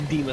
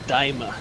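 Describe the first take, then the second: First: The first vowel sounds like 'ee'. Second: The first vowel sounds like 'eye'. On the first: The speaker calls it wrong. "Don't don't say Dima" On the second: The speaker calls it right. "Say say Daima"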